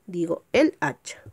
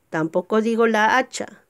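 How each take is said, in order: First: El hacha, stressing el; correct article. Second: La hacha, the wrong form; wrong article. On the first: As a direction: say el hacha, with el before hacha. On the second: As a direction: say la hacha with la before hacha. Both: Shown as a demonstration.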